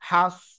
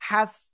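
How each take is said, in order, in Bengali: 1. স্বরধ্বনিটি ঠোঁট গোল করে, একটু ভরাট শব্দে বলা হয়। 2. স্বরধ্বনিটি দুই ঠোঁট পাশে ছড়িয়ে বলা হয়। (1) "দুই ঠোঁট একটু মোটা গোল হবে" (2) "এই যে দুই ঠোঁট কিন্তু এরকম দুই দিকে যদি চলে যায় তাহলে কিন্তু হবে না"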